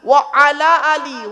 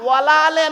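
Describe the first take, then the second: First: Words stay separate; the last ends in 'ee'. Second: Words run together; the last ends in 'eh'. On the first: The speaker calls it right. "ওয়া আলা আলি, উচ্চারণটা ঠিক করুন।" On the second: The speaker calls it wrong. "ওয়ালা আলে নয়"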